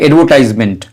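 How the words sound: It is said in an American accent. "American इसे बोलते हैं"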